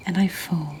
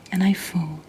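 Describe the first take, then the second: No difference in how they are said.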